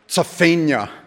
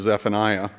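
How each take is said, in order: First: The ending sounds like the end of Pennsylvania. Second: The name has an Americanized ending. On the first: This is closer to how ancient speakers said it. The speaker calls it right. "something like Zephaniah. Almost like the end of Pennsylvania" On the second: This is the usual modern English pronunciation. The speaker calls it wrong. "we totally Americanize it and go for Zephaniah"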